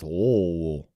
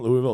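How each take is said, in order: First: "Louisville" swallowed low as "Luh-vul"; local pronunciation. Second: Said in the usual way. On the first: Shown as a demonstration. Correcting the chat's "Louisville" to local "Luh-vul". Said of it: "That's how you say it". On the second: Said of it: "Just like when you go to Louisville".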